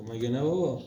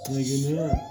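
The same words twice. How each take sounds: First: Said in the usual way. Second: Put-on very high, tiny toddler voice; playful high-pitched mimic of a toddler; squeaky baby voice. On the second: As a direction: echo her like a little girl squeaking. Father mimics child's tiny voice.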